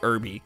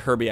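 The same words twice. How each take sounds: First: It sounds like the word herb plus an ending. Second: It sounds like the name of the movie car. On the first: "like it's a herb" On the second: "I always think of Herbie Fully Loaded"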